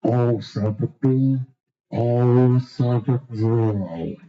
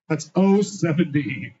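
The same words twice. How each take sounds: First: Put-on low, drawn-out old-timer bingo call; bingo caller impression. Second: Said in the usual way. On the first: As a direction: drag out oh seventy like a fair caller. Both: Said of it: "give to homage to my favorite bingo caller".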